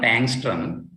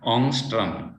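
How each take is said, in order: First: The name is said with English pronunciation. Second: The name is said with Swedish pronunciation. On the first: The speaker calls it wrong. "not Angstrom" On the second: The speaker calls it right. "in Sweden they call it Ångström. That is the correct uh, pronunciation"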